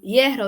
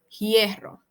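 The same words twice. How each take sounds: First: The word starts without a breathy h sound. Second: The word starts with a breathy h sound. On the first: This is the standard form. "en lugar de decir" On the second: This is the Dominican way of speaking.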